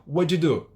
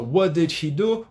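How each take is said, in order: First: "What you do?" blurred into "wuddidu"; quick one-word "wuddidu"; fast linked form. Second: Slow "What did he do?", words apart; every word of "What did he do" fully sounded; slow textbook form. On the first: Teacher contrasting the two, fast merged version. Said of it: "Fica bem mais rápido". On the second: Teacher contrasting the two, slow separated version. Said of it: "percebe que tem uma diferença". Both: Shown as a demonstration.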